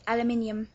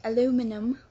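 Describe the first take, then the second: First: "aluminium" as "al-a-MIN-yum"; British pronunciation. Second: "aluminum" as "a-LOO-mi-num"; American pronunciation. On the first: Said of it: "we say aluminium". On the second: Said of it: "we don't say aluminum". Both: Shown as a demonstration.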